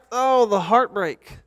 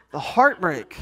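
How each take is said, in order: First: Higher, slow mock lament over the empty seat; mock heartbreak. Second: A real chuckle through the words; laughing. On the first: Pastor to congregation over the absent winner, mock heartbreak. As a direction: ham up the disappointment. Prize winner has left. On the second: Real, not acted. Pastor to congregation laughing at his own lament. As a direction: repeat it laughing at yourself.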